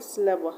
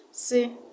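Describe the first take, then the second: First: Said in the usual way. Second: "Syllable" split into three separate units, a pause after each. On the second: Shown as a demonstration. Teacher showing the units of sound, "Syllable" broken into three. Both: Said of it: "Three units of sound".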